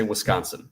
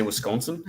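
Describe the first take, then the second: First: Wisconsin with an open ah in the middle; local Wisconsin pronunciation. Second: Wisconsin with a long o in the middle; outsider's pronunciation. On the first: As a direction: say Wisconsin as wis-KAHN-sin. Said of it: "It depends on how you say Wisconsin". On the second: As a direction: say Wisconsin as wis-CONE-sin. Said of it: "do you say Wisconsin?". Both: Shown as a demonstration.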